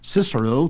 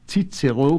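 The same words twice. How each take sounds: First: It uses the English pronunciation. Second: It uses the German pronunciation. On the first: "to the English speaker" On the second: "to the German"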